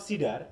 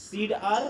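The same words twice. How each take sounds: First: "সিডার" run together, the d leading into the final "আর" sound; d joins next syllable. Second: "সিড আর" as two units, the d closing "সিড"; split after the d. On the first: Teacher offers class the other division, d carried into the next syllable. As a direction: say "সিডার" joined up, no break after the d. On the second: Teacher asks class where the d belongs, split after the d. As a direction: break it "সিড", then "আর", d kept with the first part. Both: Shown as a demonstration. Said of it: "ডিটা কি পরের সাথে যাবে না আগের সাথে যাবে".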